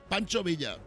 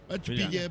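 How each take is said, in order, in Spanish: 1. El nombre se dice con pronunciación española. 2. El nombre se dice con pronunciación americana. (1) "Era mexicano" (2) "Porque así se pronuncia en Wyoming"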